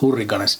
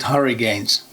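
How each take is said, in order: First: The name is said with a Finnish pronunciation. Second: The name is said with an English pronunciation. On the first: "but we in Finland it's Hurriganes" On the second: "In English people would pronounce it Hurricanes"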